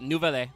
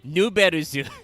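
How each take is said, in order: First: The name is said in a French style. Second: The name is said in a Japanese style.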